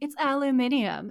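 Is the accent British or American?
British. It is said in a British accent.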